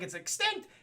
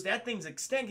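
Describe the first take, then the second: First: High, rising disbelief; incredulous question. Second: Said in the usual way. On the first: Retold or imitated. Bruce hears the plant is gone, incredulous question. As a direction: echo it back as a startled question. Batman repeats the news in disbelief.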